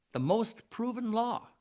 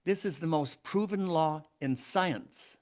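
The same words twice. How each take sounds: First: "most" lifted much higher, the whole phrase driven home; emphatic repeat. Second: Said in the usual way. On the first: Real, not acted. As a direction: hammer "most proven" from a high pitch.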